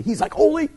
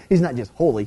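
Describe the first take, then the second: First: HOLY lifted high with rising tune; emphatic holy. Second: Said in the usual way. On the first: Shown as a demonstration. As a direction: pitch holy up as if amazed. Playful emphatic take of holy.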